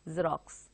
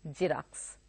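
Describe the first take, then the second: First: The word begins with a z sound. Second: The word begins with a ks sound. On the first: The speaker calls it right. "So it is actually a Xerox" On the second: The speaker calls it wrong. "We make it a point to pronounce that X as X"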